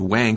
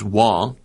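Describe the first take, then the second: First: The name is said with an American pronunciation. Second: The name is said with its original pronunciation. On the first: The speaker calls it wrong. "in America, they said Wang. They said Wang Computers. They mispronounced it in America" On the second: The speaker calls it right. "But it was Wang"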